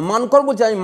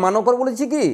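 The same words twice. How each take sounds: First: মানকর said as mankor, no vowel after ন; মানকর clipped to two syllables, mankor; correct pronunciation. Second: মানকর said as manokor with an extra o after ন; মানকর stretched to three syllables, manokor; wrong pronunciation. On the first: (শুদ্ধ উচ্চারণ: মানকর, ন-এর পরে অ নেই) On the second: (ভুল উচ্চারণ: মানকর-এ ন-এর পরে অ যোগ করে বলা) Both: Shown as a demonstration.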